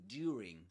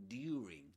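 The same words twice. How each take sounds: First: Said in the older received pronunciation way. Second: Said in the older received pronunciation way.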